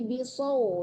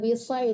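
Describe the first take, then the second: First: The vowel sounds like 'au'. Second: The vowel sounds like 'ai'. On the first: The speaker calls it right. "tapi bisau ya, yang mati wow" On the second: The speaker calls it wrong. "jangan bisai"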